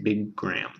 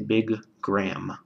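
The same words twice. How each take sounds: First: The two G sounds merge into one held stop. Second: The two G sounds are released separately. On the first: The speaker calls it right. "You slur them together" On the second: The speaker calls it wrong. "You don't say big gram"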